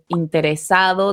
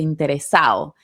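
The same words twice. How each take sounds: First: The d sound near the end is pronounced. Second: The d sound near the end is dropped. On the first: "En lugar de interesado" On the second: "dice interesado"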